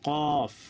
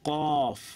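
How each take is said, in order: No difference in how they are said.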